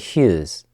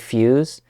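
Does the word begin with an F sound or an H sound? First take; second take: H sound; F sound. First: The word begins with an H sound. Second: The word begins with an F sound. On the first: "it's pronounced with an H" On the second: "they don't say fuse"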